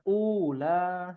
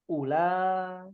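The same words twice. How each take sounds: First: The vowel after the first sound is long. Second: The vowel after the first sound is short. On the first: The speaker calls it wrong. "bukan ula seperti itu" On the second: The speaker calls it right. "Itu dibacanya pendek"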